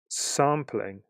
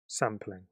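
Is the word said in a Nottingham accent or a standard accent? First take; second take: standard; Nottingham. First: The word is said in a standard accent. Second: The word is said in a Nottingham accent.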